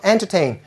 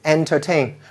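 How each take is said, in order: First: The stress is on the first syllable. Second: The stress is on the last syllable. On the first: The speaker calls it wrong. "We don't put the stress in the front. It's not entertain" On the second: The speaker calls it right. "It's entertain"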